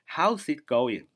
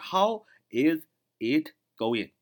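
First: 'How is' is linked into one syllable 'how's'. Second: 'How is' is said as two full words. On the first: "连读就是" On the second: "本来应该是"

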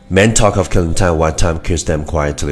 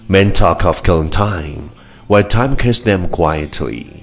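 First: The sentence is spoken very fast in one breath. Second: The sentence is spoken at a moderate pace.

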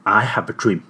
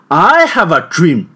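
First: It is said at a low pitch. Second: It is said at a high pitch.

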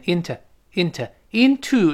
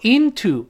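First: The second vowel is reduced to a schwa. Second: The second vowel is a full u sound.

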